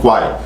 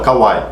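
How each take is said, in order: First: The name is said as one syllable. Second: The name is split with a vowel after K. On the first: The speaker calls it right. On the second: The speaker calls it wrong.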